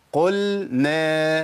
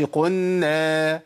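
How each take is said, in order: First: قلنا with the لام sounded before نون, slowly; clear lam. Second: قلنا as قنّا with the لام assimilated into نون; merged lam. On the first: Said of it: "وأرجع بلساني تاني". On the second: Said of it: "ما أقولش". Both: Shown as a demonstration.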